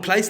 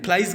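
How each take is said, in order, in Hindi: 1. शब्द s की ध्वनि से खत्म होता है। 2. शब्द z की ध्वनि से खत्म होता है। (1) "आप फ्लाइज नहीं कहते हैं" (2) "फ्लाइज कहते हैं"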